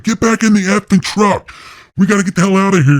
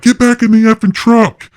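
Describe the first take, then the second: First: High, frantic shouted order; retold yelling, high and pressing; urgent yell. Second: High, loud shouted order; retold yell, high and loud. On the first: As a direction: yell at them to get back in. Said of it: "Jeremiah's like". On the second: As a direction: bark it at them from the truck. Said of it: "I'm yelling".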